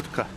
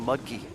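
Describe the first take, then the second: First: The name ends with an 'uh' sound. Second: The name ends with an 'ee' sound. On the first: This is how the name is really pronounced. The speaker calls it right. "Mutka is the correct pronunciation" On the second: This is the common American way of saying it. The speaker calls it wrong. "most Americans just call Mudkey"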